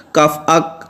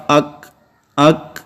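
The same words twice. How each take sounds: First: اک cut off sharply with no breath after; اک with a hard, unaspirated k; hard clipped k. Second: اک with a breathy puff of air after the k; اک ending with a light kh breath; soft aspirated k. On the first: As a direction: snap the k of اک shut. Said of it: "اب یہ درست نہیں ہے". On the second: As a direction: release the k of اک softly into air. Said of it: "آواز یوں ظاہر ہوگی". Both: Shown as a demonstration.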